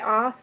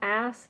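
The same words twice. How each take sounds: First: The word is said with an Australian vowel. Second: The word is said with an American vowel. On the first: "in an Australian accent, we say ass" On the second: "not ass"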